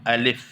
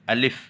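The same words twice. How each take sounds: Both takes have the same delivery.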